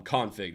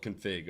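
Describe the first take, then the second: First: "config" as CON-fig, open first vowel; first-syllable stress. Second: "config" as kun-FIG, weak first syllable; second-syllable stress. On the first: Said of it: "developers call this word". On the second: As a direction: put the weight on the end of "config": kun-FIG. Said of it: "They don't call it config". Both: Shown as a demonstration.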